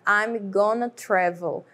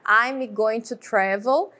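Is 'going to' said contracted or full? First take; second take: contracted; full. First: Going to is contracted into gonna, said faster. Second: Going to is said in full, each word separate.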